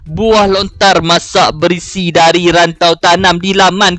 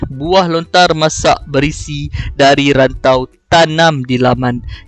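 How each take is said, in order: First: The line runs on with no pauses. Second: The line has short pauses between phrases. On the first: The speaker calls it wrong. "saya tak akan baca macam tu" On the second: The speaker calls it right. "saya akan baca ada hentian dekat sini"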